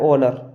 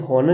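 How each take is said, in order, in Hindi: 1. इस शब्द की शुरुआत स्वर से होती है, h साइलेंट है। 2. इस शब्द की शुरुआत में h की आवाज़ सुनाई देती है। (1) "ये लिखा है ऑनर, क्योंकि अगर आपको ओ से पहले एच आया साइलेंट" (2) "पर हम इसे हॉनर नहीं पढ़ते हैं"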